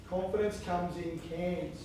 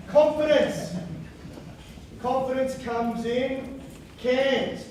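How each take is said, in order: First: Said in the usual way. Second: Big, slow, booming motivational guru, higher and louder; Tony Robbins voice. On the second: Acted. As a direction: sell it like a stage guru, drawn out. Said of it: "every so often I slip into Tony Robbins".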